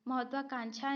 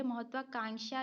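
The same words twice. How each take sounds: First: महत्वाकांक्षा ending in "chha", mahatvakanchha; wrong pronunciation. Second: महत्वाकांक्षा ending in "ksha", mahatvakanksha; correct pronunciation. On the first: Teacher rejecting a misspelling, महत्वाकांक्षा ending in "chha". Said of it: "नहीं". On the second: Teacher showing how it is written, महत्वाकांक्षा ending in "ksha". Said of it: "लिखा जाता है". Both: Shown as a demonstration.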